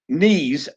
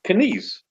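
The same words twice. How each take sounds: First: The K at the start is silent. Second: The K at the start is pronounced. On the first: It is the ordinary English word for the leg joints. "you can have silent K" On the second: It is the German cyclist's name. "in German, he they pronounce the K"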